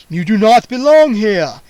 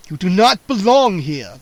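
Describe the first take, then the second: First: Put-on very loud menacing old vampire. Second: Put-on loud booming old vampire warning. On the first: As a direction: threaten them with the words. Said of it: "he repeated menacingly". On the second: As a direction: boom it out to scare the intruders. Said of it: "the old vampire boomed". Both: A narrator's reading.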